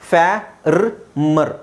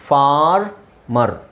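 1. ಮೊದಲ ಭಾಗ 'fya' ತರ ಕೇಳಿಸುತ್ತೆ, ಆದರೆ ವಿಚಿತ್ರವಾಗಿ ಒಡೆದಿದೆ. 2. ಮೊದಲ ಭಾಗ 'far' ತರ ಕೇಳಿಸುತ್ತೆ, ಆಮೇಲೆ 'mer'. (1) "ಫ್ಯಾ ರ್ ಮರ್ ಅಲ್ಲ" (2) "FAR ಆದಮೇಲೆ ನೀವು ಇಲ್ಲಿ ಹಾಕಬೇಕು"

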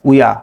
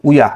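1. শব্দ দুটি মিশে একটি সিলেবল হয়ে যায়। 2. শব্দ দুটি মিশে একটি সিলেবল হয়ে যায়।

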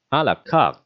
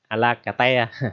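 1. 'carte' được đọc là một âm tiết. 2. 'carte' được đọc là hai âm tiết. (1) "Cái từ này bạn đọc là à la carte" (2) "đừng đọc như vậy ha"

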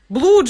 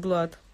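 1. Гласный звучит как 'oo', читается по написанию. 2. Гласный звучит как 'ah', как в 'bud'. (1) "Блуд же написано" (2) "говорят, что мне читать как блад"

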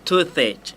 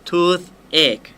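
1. พูดเร็วๆ ให้สองส่วนเชื่อมกันเล็กน้อย 2. พูดช้าๆ แยกสองส่วนออกจากกัน (1) "ถ้าอ่านเร็วๆก็จะมีลิงก์ขึ้นหัวนิดนึง" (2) "ถ้าอ่านช้าๆเสียงจะต้องแยกกันนะครับ"

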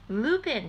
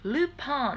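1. 名前は'Loo-pin'って言う。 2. 名前は'Lu-pan'って言う。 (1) "Lupin じゃなくて" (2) "Lupin っていう風に言ってる"

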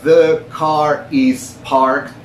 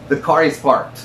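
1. Cada palabra se dice por separado y con claridad. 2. El artículo y el sustantivo se pegan y suenan como una sola palabra. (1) "yo en vez de decir" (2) "coloquial o conversacionalmente, lo diría"

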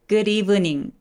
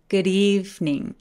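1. "evening"의 두 번째 모음은 발음됩니다. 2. "evening"의 두 번째 모음은 탈락합니다. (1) "good evening 이라고 하지 않고" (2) "두 번째 이가 사라지는 현상이 생겨요"

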